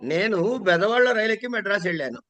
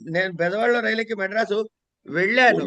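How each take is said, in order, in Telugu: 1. మొదటి పదం, 'nenu', మీద ఒత్తి ఉంది. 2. చివరి పదం, 'vellanu', మీద ఒత్తి ఉంది. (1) "నేను దగ్గర నొక్కారనుకోండి" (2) "ఎటువంటి ఇబ్బందులు లేకుండా"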